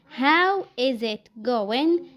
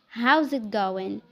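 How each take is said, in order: First: Each word is said separately and in full. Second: 'How is' is squeezed into one syllable.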